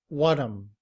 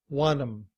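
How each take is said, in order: The two takes are said the same way.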